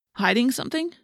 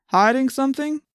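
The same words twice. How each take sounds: First: Echoed question. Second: Lightly voiced cop's probing question; suspicious policeman. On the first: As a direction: repeat it back as a mild query. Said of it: "I repeated". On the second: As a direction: question them like a cop, pitch rising higher. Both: A narrator's reading.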